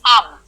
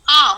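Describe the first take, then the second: First: A plain vowel is followed by a separate m. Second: The vowel itself is nasalized throughout. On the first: "आ और सिर्फ अनुस्वार है" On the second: "मतलब directly आप उसको अनुनासिक बनाते हैं"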